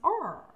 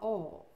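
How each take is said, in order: First: Said in an American accent, with the r. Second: Said in a British accent, vowel drawn out. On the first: "E já os americanos, or" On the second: "Você vai ver que os britânicos ... realçam mais as vogais ... eles vão falar oh"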